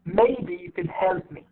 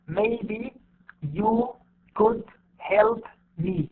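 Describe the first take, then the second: First: You, could and me are reduced and unstressed. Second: Every word is said fully with equal weight.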